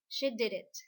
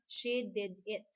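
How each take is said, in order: First: The words run together, with sounds linked. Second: Each word is said separately, without linking. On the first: The speaker calls it right. "So if we're going to pronounce it, we say" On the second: The speaker calls it wrong.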